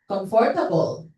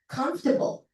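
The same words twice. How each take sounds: First: It is said with a Filipino English pronunciation. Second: It is said with a native English pronunciation. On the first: "Filipinos pronounce it in a way na medyo kakaiba" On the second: "you have to say the word comfortable"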